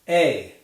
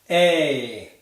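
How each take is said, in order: First: The sound is said at a faster pace. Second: The sound is said at a slow pace.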